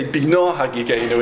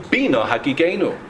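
First: Bina stressed on "na" before Hagigenu; misplaced stress. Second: Bina stressed on "Bi" before Hagigenu; stress on earlier syllable. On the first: Retold or imitated. Mistaken prayer leader reciting Slichos, Bina stressed at the end. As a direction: wrongly land on the last syllable of Bina. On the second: Shown as a demonstration. Teacher quoting the Slichos request, Bina stressed at the start. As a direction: recite with the first syllable of Bina punched. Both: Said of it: "with the emphasis on the earlier syllable".

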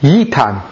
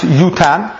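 First: "yitan" with an ee vowel in its first syllable; pronounced yitan. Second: "yutan" with an oo vowel in its first syllable; pronounced yutan. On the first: Teacher offering the other reading of an unvowelled word, "yitan" said YEE-tahn. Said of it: "Or is it pronounced". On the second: Teacher offering the first reading of an unvowelled word, "yutan" said YOO-tahn. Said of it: "Is it pronounced yutan". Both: Shown as a demonstration.

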